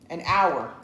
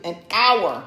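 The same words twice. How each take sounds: First: Said in the usual way. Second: "hour" punched loud; emphatic repeat. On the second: Retold or imitated. Storyteller insisting on the length of the search, "hour" stressed loudly. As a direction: hit "hour" hard, much louder.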